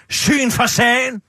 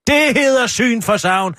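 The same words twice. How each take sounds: First: "Syn for sagen" said slowly, mocking; wrong saying. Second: "syn for savn" said slowly and firmly; slow emphatic "syn for savn"; correct saying. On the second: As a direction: lay out "syn for savn" slowly as the right version. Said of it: "Det hedder ikke syn for sagen". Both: Shown as a demonstration.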